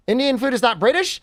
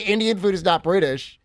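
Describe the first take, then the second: First: "British?" rising at the end, questioning; reading it as a question. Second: "Indian food is not British." said as a statement, falling at the end; flat statement. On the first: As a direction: ask "Indian food is not British?" with a rising tune on "British". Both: Shown as a demonstration.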